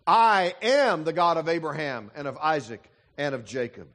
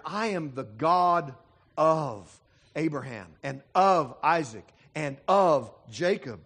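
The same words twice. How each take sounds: First: "am" leaned on, each "of" passed over lightly; stress on am. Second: Each "of" slowed and pressed hard; stress on of. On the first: Preacher reading God's words to his congregation, stress on am. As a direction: quote God with the weight on "am". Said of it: "not so much the word "is". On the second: Preacher rereading God's words to his congregation, stressing of. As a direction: lean on every "of", unhurried. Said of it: "as it is the word "of". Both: Shown as a demonstration.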